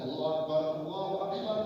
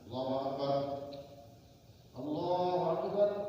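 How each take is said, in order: First: Both phrases are joined in one breath. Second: A breath pause separates the two phrases.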